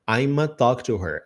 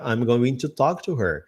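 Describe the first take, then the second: First: The words are reduced and blended together. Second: Every word is said in full. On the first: "I'mna ou I'ma"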